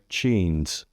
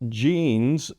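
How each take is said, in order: First: The first sound is unvoiced, like CH. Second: The first sound is voiced, like J. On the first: The speaker calls it wrong. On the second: The speaker calls it right.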